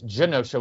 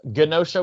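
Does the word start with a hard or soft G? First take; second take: soft; hard. First: The word begins with a soft G sound. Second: The word begins with a hard G sound. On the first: The speaker calls it right. "with a soft G" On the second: The speaker calls it wrong. "with a hard G"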